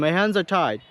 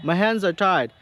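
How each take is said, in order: No difference in how they are said.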